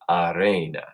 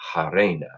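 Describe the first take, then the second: First: The word begins without an h sound. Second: The word begins with an h sound. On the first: "Some Romans, would say" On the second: "we'll pronounce our H's. We'll say"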